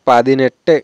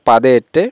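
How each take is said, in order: First: It is said as one joined word. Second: It is said as two separate parts. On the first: The speaker calls it right. "এখানে হবে" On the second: The speaker calls it wrong. "এরকম কেউ কেউ উচ্চারণ করে থাকে"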